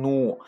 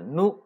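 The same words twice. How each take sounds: First: Nu with lips pushed out and rounded; wrong pouted nu. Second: Nu with flat, unpouted lips; correct unrounded nu. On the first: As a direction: pout into a drawn-out nu. (“nu”撅嘴错读) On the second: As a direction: keep the lips spread on nu. (“nu”扁嘴读，不撅嘴) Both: Shown as a demonstration. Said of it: "不要撅嘴啊".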